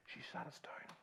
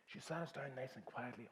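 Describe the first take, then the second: First: Hushed whisper; whispered retelling. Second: Said in the usual way. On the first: Retold or imitated. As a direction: drop to a whisper as if not to wake anyone.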